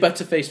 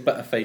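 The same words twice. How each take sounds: First: The middle consonant is a clear T. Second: The middle consonant is dropped entirely. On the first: "you say Butterface with a T" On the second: "we'd say Butterface with no T"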